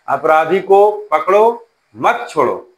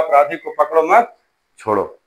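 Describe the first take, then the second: First: The pause comes after पकड़ो. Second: The pause comes after मत.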